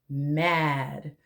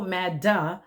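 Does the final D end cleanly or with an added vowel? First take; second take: cleanly; added vowel. First: The final D is sounded with no added vowel. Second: The final D is followed by an extra vowel. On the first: The speaker calls it right. "sound out the D at the end" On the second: The speaker calls it wrong. "don't go mad duh like many of my students"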